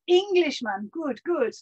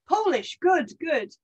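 First: Lightly put-on Polish accent, higher and louder; a Polish soldier returning the compliment in a Polish accent. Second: Lightly put-on Scottish sailor accent, pitched higher; a grinning Scots sailor greeting the Poles. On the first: Polish soldier answers British sailor, light Polish accent. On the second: British sailor greets Polish soldier, light Scottish accent. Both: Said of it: "I am doing the accent".

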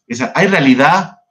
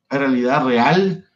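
First: Said in the usual way. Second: Slow question, leaning on "real"; slow, rising "¿Hay realidad real?" with "real" stressed. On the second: Shown as a demonstration. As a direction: stretch it out and land on "real" with a rise.

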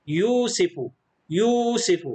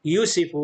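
First: "يوسف" with the first oo stretched long; long vowel. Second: "يوسف" with a brief first u; no stretch on the yu of "يوسف"; short vowel. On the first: Teacher corrects to the lengthened form, long-vowel "يوسف". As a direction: hold the yoo of "يوسف", then finish the word. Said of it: "لكن فيه مد، نقول". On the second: Teacher repeats the faulty form, short-vowel "يوسف". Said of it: "تصبح صوت قصير". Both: Shown as a demonstration.

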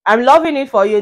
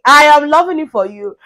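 First: Said in the usual way. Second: "I am" said in full, louder and higher; punched-up "I am", no contraction; emphatic repeat. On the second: Acted. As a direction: lean hard on "I am", raising pitch and volume.

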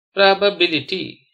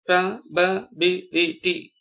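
First: Said in the usual way. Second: "probability" slowly as pro, ba, bi, li, ty; five evenly spaced beats on "probability"; syllable by syllable. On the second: Shown as a demonstration. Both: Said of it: "spell the word".

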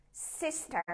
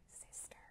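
First: Said in the usual way. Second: Sister whispered, much softer; whispered echo. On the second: Shown as a demonstration. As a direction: breathe it like a secret. Class echo game, plain then whisper. (thì thầm lại chữ Sister)

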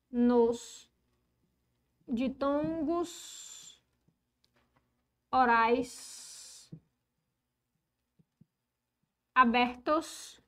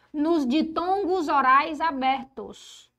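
First: Stretched words with long pauses between; drawn-out, isolated words, board dictation. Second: Said in the usual way. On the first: Real, not acted. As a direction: dictate slowly as you write. Dictates while writing the rule.

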